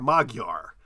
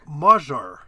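First: The middle consonant is a hard g sound. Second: The middle consonant is a soft j sound. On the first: The speaker calls it wrong. "I always thought it looked like Magyar" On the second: The speaker calls it right. "it's pronounced like we do a soft J sound"

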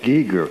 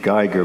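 First: The name is said the Carolina backcountry way. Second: The name is said the German way.

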